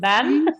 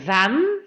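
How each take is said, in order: First: The word begins with a b sound. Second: The word begins with a buzzing v sound. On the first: The speaker calls it wrong. "y no van" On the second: The speaker calls it right. "es verdaderamente un V de van"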